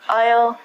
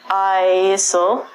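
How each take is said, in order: First: The S sound is silent. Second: The S sound is pronounced. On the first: The speaker calls it right. "The S in these words are silent" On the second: The speaker calls it wrong. "We don't say isle and isle"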